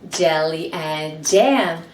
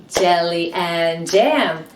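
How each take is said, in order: The two takes are said the same way.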